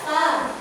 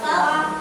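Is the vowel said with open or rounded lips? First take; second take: open; open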